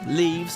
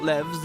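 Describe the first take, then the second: First: The vowel is a long 'ee' sound. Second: The vowel is a short 'e' sound. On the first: The speaker calls it right. "Leaves, not levs" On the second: The speaker calls it wrong. "not levs"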